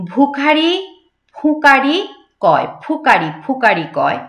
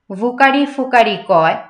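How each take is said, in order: First: ভুখারি ফুকারি with bh and ph popped off the lips; both lips closed. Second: ভুকারি ফুকারি with v and f, lips not meeting; loose lips. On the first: Teacher corrects, ভুখারি ফুকারি with lips pressed together. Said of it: "এই ঠোঁট দুটো লাগবে একসাথে". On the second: Teacher shows the mistake, ভুকারি ফুকারি with v and f. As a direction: let air leak, vukari fukari. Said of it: "এখানে কিন্তু হবে না". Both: Shown as a demonstration.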